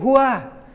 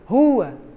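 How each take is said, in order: First: The stress falls on the second syllable. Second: The stress falls on the first syllable. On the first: The speaker calls it wrong. "Não é" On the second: The speaker calls it right. "rua, a sílaba tônica é ru"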